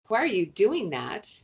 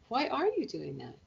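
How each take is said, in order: First: It sounds judgmental and accusing. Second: It sounds curious and open.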